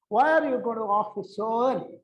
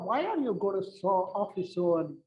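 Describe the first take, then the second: First: The question sounds harsh and demanding. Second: The question sounds sweet and melodious. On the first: The listener is being asked to justify himself. The speaker calls it wrong. "the tone is something which is bad" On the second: The asker is simply curious and affectionate. The speaker calls it right. "it's so melodious tone"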